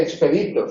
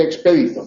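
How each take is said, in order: First: Expedito wrongly stressed ex-PÉ-di-to; shifted stress. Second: Expedito stressed expe-DI-to. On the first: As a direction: move the beat in expedito back to PE. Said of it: "no se dice expedito". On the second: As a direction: put the beat on DI in expedito. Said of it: "se dice expedito". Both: Shown as a demonstration.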